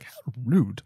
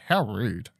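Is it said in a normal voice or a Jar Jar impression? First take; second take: Jar Jar impression; normal voice. First: It is said imitating Jar Jar Binks's voice. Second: It is said in a plain, normal voice.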